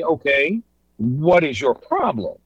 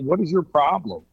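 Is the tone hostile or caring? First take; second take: caring; hostile. First: It sounds concerned and willing to help. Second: It sounds confrontational and accusing.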